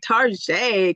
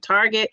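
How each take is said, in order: First: The word is said in a fancy-sounding way. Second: The word is said in an ordinary way. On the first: "I say Target because I like to sound fancy smancy" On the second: "instead of saying Target"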